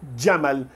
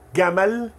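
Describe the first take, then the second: First: It begins with a d before the j. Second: It begins with a hard g sound. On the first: This is the Gulf way of saying it. "Imagine um D pequenininho no comecinho" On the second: This is the Egyptian way of saying it. "o egípcio vai dizer"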